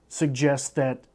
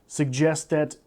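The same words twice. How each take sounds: The two takes are said the same way.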